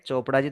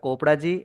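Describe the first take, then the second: First: The name begins with a 'ch' sound. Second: The name begins with a 'k' sound. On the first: The speaker calls it right. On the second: The speaker calls it wrong.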